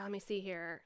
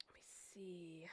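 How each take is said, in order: First: Said in the usual way. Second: Slow whisper to herself; whispering while digging through her phone. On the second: Real, not acted. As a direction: murmur it under the breath while searching.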